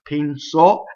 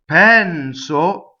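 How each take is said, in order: First: The stress is on the last syllable. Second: The stress is on the first syllable. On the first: He thought. "accents on the end" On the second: I think. "I think"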